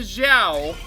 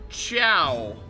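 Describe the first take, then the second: First: The name begins with a soft 'zh' sound. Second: The name begins with a hard 'ch' sound. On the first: The speaker calls it wrong. "not the Zhao" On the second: The speaker calls it right. "I was told it's pronounced the Chow"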